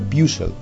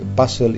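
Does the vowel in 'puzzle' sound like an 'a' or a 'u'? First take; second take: u; a. First: The first vowel sounds like a 'u'. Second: The first vowel sounds like an 'a'. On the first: The speaker calls it wrong. "y no puzzle, Como sería lo más normal" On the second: The speaker calls it right. "esa U se pronuncia como una A"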